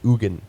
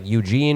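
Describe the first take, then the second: First: The name is said with a Swiss pronunciation. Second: The name sounds like the English name Eugene. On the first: The speaker calls it right. "the Swiss pronounce it Eugen" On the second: The speaker calls it wrong. "I thought it was just like Eugene"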